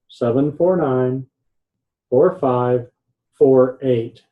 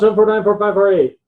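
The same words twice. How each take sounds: First: The digits are said slowly and clearly. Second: The digits are rattled off quickly. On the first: The speaker calls it right. "say it slowly" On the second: The speaker calls it wrong. "Don't go"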